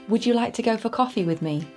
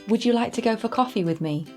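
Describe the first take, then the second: No difference in how they are said.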